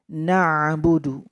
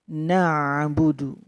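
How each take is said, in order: No difference in how they are said.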